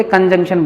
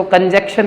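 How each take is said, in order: First: कंजंक्शन as "kanjungshan"; correct pronunciation. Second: कंजक्शन as "kanjekshan"; wrong pronunciation. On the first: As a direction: sound the N inside कंजंक्शन. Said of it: "बोलते हैं". (कंजंक्शन न के साथ) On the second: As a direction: demonstrate कंजक्शन with no middle N. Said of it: "नहीं बोलते". (कंजक्शन बिना न के) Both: Shown as a demonstration.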